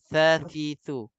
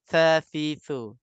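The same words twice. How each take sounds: First: The syllables start with a th sound. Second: The syllables start with a th sound.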